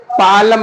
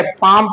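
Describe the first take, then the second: First: पालम with the L sounded, paa-lam; wrong pronunciation. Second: पाम said with a silent L, paam; correct pronunciation. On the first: Teacher showing the wrong way to say palm. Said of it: "पालम नहीं पढ़ेंगे". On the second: Teacher giving the correct silent-L form. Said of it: "पाम पढ़ेंगे". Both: Shown as a demonstration.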